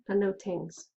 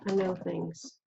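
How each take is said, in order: First: It is said in a Jamaican accent. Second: It is said in the speaker's own accent.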